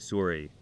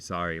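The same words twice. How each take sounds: First: It is said with a Canadian accent. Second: It is said with an American accent.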